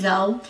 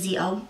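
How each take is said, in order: First: The name is said as one word, 'Zoe'. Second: The name is said as 'Zee-oh'. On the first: This is the speaker's own way of saying it. "I say Zoe" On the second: This is how someone else says it. "she says Zio"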